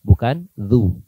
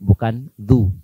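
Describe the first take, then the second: No difference in how they are said.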